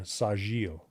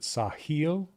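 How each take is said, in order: First: The middle consonant is a J sound. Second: The middle consonant is an H sound. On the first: The speaker calls it right. "Second one is closer" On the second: The speaker calls it wrong. "is the J pronounced as an H?"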